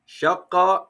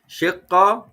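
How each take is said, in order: First: The first vowel is a. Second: The first vowel is i. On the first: "They have three pronunciations" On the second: "They have three pronunciations"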